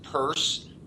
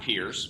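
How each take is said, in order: First: The name rhymes with 'nurse'. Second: The name rhymes with 'fierce'. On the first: The speaker calls it right. "pronounced Purse" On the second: The speaker calls it wrong. "not Pierce"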